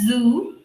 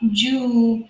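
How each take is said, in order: First: It starts with a buzzing z sound. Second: It starts with a j-like sound. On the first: The speaker calls it right. "So it makes a sound of Z" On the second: The speaker calls it wrong. "I have seen people pronouncing this as"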